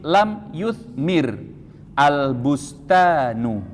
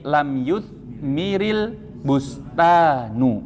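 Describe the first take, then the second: First: The verb ends with sukun, then "al" separately. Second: The verb links to the next word with "-il". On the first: The speaker calls it wrong. "Meskipun ini keliru, tapi untuk mempermudah dan memperjelas saja" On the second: The speaker calls it right. "kalau dibaca sekaligus"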